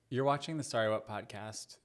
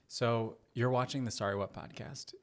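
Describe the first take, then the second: First: It is tossed off casually, thrown away. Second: It is said warmly, as to a loved one.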